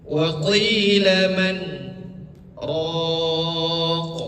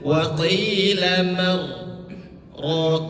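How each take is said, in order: First: A short stop comes after man, with no breath. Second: The words run together with n merged into r. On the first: The speaker calls it right. "berhenti dengan tidak mengambil nafas sekitar dua ketukan" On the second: The speaker calls it wrong. "Jadi jangan"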